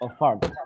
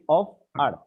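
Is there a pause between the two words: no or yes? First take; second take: no; yes. First: The two words are linked without a pause. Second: There is a pause between the two words. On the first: The speaker calls it right. "one sound" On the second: The speaker calls it wrong. "you don't say of art. You don't make a pause"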